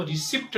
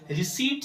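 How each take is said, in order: First: "रिसिप्ट" with p sounded, "ri-sipt"; short i and audible p in "रिसिप्ट"; wrong pronunciation. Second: "रिसीट" with silent p, "ri-seet"; long ee, no p in "रिसीट"; correct pronunciation. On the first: Teacher showing the error, "रिसिप्ट" as "ri-sipt". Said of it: "रिसिप्ट नहीं चाहिए". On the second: Teacher correcting it, "रिसीट" as "ri-seet". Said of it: "पी यहाँ पे silent". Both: Shown as a demonstration.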